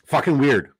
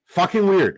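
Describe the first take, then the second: First: Said in the usual way. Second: "weird" punched much higher and louder; emphatic repeat. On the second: Real, not acted. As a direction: hit "weird" hard the second time.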